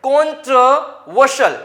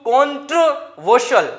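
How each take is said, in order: Both takes have the same delivery.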